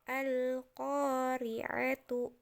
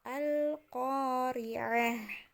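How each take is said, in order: First: The word ends with a t and vowel. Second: The word ends with a breathy h. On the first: This is the form read when continuing. "Tertulisnya seperti itu" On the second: This is the form read when stopping. "bukan lagi jadi tu, tapi menjadi H"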